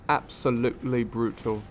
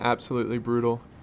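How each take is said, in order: First: It is said in an imitated English accent. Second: It is said in the speaker's usual accent.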